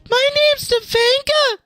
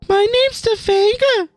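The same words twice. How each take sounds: First: It is said in a high-pitched put-on voice. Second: It is said in a lower put-on voice.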